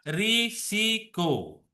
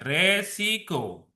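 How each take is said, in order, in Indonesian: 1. Suku kata pertama vokalnya 'i'. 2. Suku kata pertama vokalnya 'e'. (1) "benarnya adalah risiko" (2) "bukan resiko"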